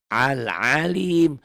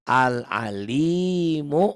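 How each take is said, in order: First: The word ends on a consonant, no vowel. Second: The word ends with a short final vowel. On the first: The reading stops on this word. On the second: The reading continues without stopping.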